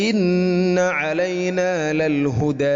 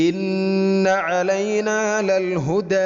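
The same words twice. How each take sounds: Both takes have the same delivery.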